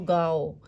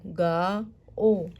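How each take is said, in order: First: It is said quickly, as one smooth word. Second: It is said slowly, split into two parts.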